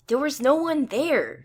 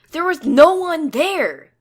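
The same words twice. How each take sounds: First: Raised, emphatic insisting; insistent. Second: Loud, slow, raised voice; insistent shout. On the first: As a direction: push back hard on every word. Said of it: "Sai insists again". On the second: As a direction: hammer it home, stretching each word. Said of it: "Psionic insists". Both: A narrator's reading.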